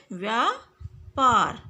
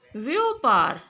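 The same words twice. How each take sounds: First: व्यापार as "vyaa-paar"; correct pronunciation. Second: व्यापार loud, as "vyopaar"; wrong pronunciation. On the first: Teacher giving the correct word, व्यापार with long "vyaa". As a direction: give व्यापार a long "aa" in both halves. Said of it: "इसका शुद्ध है". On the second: Teacher showing the incorrect word, व्यापार said "vyopaar". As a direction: say व्यापार with "o" in the first syllable. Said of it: "अशुद्ध शब्द है". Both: Shown as a demonstration.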